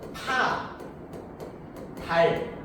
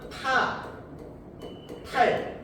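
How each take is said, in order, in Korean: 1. 두 번째 음절은 부드러운 d로 시작합니다. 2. 두 번째 음절은 거센 t로 시작합니다. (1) "어떤 사람은 파, 달 이렇게 소리를 내겠죠" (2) "어떤 사람은 타, 탈 이렇게 소리를 낼 것이고요"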